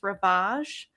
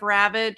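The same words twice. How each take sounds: First: The word is pronounced in an exaggerated way. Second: The word is pronounced in the ordinary way. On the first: "enhance the pronunciation of words" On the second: "instead of"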